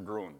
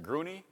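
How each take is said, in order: First: It is said as groo-en, without a final vowel. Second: It is said in two syllables ending in nee. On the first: "or Gruen" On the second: "Is it Gruney"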